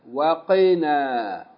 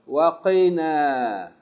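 No difference in how they are said.

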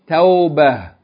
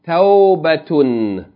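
First: The word ends in a with no t-sound. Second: The word ends with a t-sound and -un. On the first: The reader stops on this word. "Pause mode" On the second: The reading continues on without stopping. "Continual mode"

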